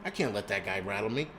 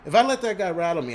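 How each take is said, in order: First: Said in the usual way. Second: The same line again, much louder and higher; louder, higher outburst. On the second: Real, not acted. Ranting vlogger to viewers, erupting louder and higher. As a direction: let it burst out, louder.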